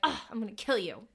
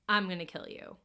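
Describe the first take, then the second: First: It is said in a playful, joking way. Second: It is said flat and deadpan.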